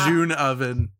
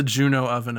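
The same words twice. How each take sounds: First: "June oven" with one-syllable "June"; corrected name. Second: "Juno oven" with three syllables, JU-no; wrong name. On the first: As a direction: say "June" as a single JOON before "oven". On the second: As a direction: say "Juno" as JOO-noh before "oven". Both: Real, not acted. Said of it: "I called it Juno by accident".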